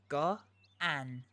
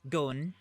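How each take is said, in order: First: The vowels are said apart as two syllables. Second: The vowels merge into one syllable. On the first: The speaker calls it right. "you make the sounds separately and not together" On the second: The speaker calls it wrong. "rather than say"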